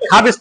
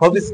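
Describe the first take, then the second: First: The first vowel is an open 'ah' sound. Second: The first vowel is a rounded 'aw' sound. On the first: The speaker calls it wrong. "খাবিস তো আর কয় না" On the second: The speaker calls it right. "খবিস কয়।"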